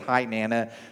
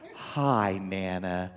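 First: It is said in a plain, ordinary voice. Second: It is said in a sweet, honeyed voice.

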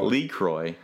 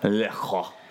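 First: The first syllable sounds like 'lee'. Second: The first syllable sounds like 'luh'. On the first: This imitates how a rapper says it in a song. The speaker calls it wrong. "He says Lee Croix" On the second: This is how it is actually pronounced. The speaker calls it right. "it's actually pronounced Le Croix"

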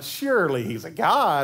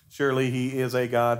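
First: It is said with mocking sarcasm. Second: It is read flatly, without expression.

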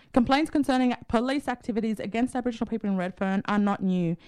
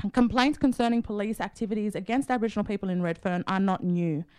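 No difference in how they are said.

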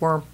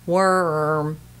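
First: The vowel is short and clipped. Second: The vowel is lengthened and drawn out. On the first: "instead of worm" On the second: "that's how I'm lengthening those syllables a little bit"

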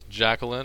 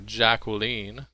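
First: The name is said in a plain American way. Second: The name is said in a fancier British way. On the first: "As opposed to us Yanks" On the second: "very a lot fancier way to say it"

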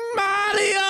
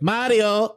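First: Luigi's call sounds desperate and pleading. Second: Luigi's call sounds calm and relaxed.

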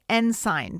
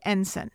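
First: The word is pronounced just as it is spelled. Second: The word is pronounced differently from its spelling. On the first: The speaker calls it wrong. "I pronounced it the way it's spelled" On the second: The speaker calls it right. "It's pronounced Ensign"

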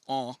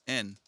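First: The word is pronounced the French way. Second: The word is pronounced the Spanish way. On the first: "in French it's en" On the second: "in Spanish it's en"

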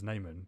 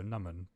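First: The name is said in an anglicized pronunciation. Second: The name is said in its original pronunciation. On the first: This is the easier version used in English settings. "my English name is Naaman, because it's just easier" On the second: This is how the family says the name. "how my family would pronounce it"

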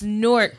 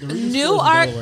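First: The name is blended together into one word. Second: The name is said as two separate parts. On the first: This is the city in New Jersey. "and it's Newark, New Jersey. Spelled the same way, pronounced differently" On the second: This is the town in Delaware. "it's Newark, Delaware"

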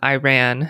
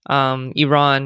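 First: It is said with an American pronunciation. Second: It is said with a non-American pronunciation. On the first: The speaker calls it wrong. "not Iran" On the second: The speaker calls it right. "Iran, not Iran"

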